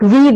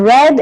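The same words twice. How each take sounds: First: The vowel is a long 'ee' sound. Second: The vowel is a short 'eh' sound. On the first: "can be read as E" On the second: "and as A"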